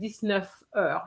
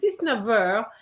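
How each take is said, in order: First: The final sound of neuf is an F. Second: The final sound of neuf is a V. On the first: The speaker calls it wrong. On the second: The speaker calls it right.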